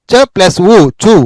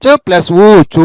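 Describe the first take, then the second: First: చు with a short u; short vowel. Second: చూ with a drawn-out oo; long vowel. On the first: Teacher combining చ with each vowel, short vowel. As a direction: keep చు brief. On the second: Teacher combining చ with each vowel, long vowel. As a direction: stretch ఉ and చూ. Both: Shown as a demonstration. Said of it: "చ అనే దానికి ఆ కలిపితే చ".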